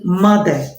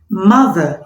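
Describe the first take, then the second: First: The middle consonant is a d sound. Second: The middle consonant is a voiced th sound. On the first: The speaker calls it wrong. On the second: The speaker calls it right.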